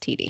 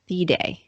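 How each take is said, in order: First: The name sounds like the letters 'tee-dee'. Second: The name is read straight from its spelling. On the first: This is how the owner of the name says it. The speaker calls it right. "it's apparently pronounced T D" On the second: This is how the spelling suggests it is said. The speaker calls it wrong. "like the Thede, in my opinion"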